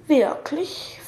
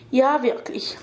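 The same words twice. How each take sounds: First: Mildly doubtful, rising "Wirklich?"; suspicious question. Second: Said in the usual way. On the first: A narrator's reading. Girl doubts the old man's promise, mildly suspicious. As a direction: ask it with a lift at the end. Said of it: "fragte sie misstrauisch".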